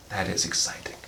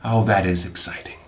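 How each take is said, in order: First: Breathy dry whisper. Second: Said in the usual way. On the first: Shown as a demonstration. Unboxing films, whispers his excitement to viewers. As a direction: whisper it like a secret. Whispered repeat of same line.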